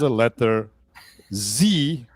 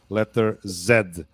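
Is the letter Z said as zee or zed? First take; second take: zee; zed. First: The letter is said as zee, American style. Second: The letter is said as zed, British style.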